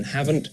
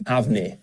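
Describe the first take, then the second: First: Said in the usual way. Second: "haven't" said as hav-nee, without a final T; Scottish dialect "havnae". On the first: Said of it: "rather than". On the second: Shown as a demonstration. Coach showing the Scots form, "haven't" said as havnae. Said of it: "a Scots speaker might say".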